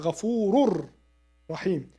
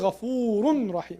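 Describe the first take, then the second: First: The n merges fully into a doubled r. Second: An n sound is heard before the r. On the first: The speaker calls it right. "we say" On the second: The speaker calls it wrong. "We don't say"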